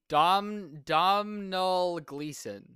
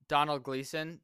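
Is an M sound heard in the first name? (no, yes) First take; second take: yes; no. First: The first name is said with an M sound. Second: The first name is said without an M sound. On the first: The speaker calls it wrong. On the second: The speaker calls it right.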